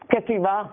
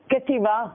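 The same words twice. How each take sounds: No difference in how they are said.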